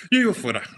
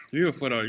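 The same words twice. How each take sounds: First: Loud, high, firm declaration; emphatic. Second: Said in the usual way. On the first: Real, not acted. To the interviewer, correcting his wording: emphatic. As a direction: plant it hard: I live abroad. Answers question about leaving Cuba.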